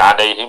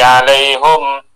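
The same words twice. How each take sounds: First: The word ends with the vowel i: alaihim. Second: The word ends with the vowel u: alaihum. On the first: This is the usual reading. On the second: This follows another recognised reading of the text.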